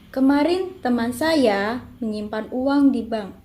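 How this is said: The stress falls on saya. "Yang ketiga mendapatkan tekanan pada saya"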